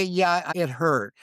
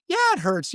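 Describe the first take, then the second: First: Slow, drawn-out "Yeah, it hurt"; slow, calm honest admission. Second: "Yeah" jumps much higher and louder; honest admission, higher and louder; emphatic admission. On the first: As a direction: let the admission sink in slowly. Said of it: "it's okay to say". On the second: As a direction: blurt out that it hurts. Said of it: "but somebody will say". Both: Retold or imitated.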